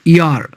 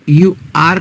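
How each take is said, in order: First: It is said as one contracted syllable. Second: It is said as two full separate words. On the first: "हो जाएगा योर" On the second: "यू आर का हो जाएगा योर"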